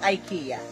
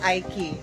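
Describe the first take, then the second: First: It is said the way people say it in the Philippines. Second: It is said the way people say it in Oman. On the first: "Sa Philippines is IKEA" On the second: "ang pronounce dito sa Oman ng IKEA is Aiki"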